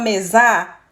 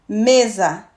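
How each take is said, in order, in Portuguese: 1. A vogal final é forte e tônica. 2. A vogal final é fraca e átona. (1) "a gente não fala mesar" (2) "sempre átono como mesa"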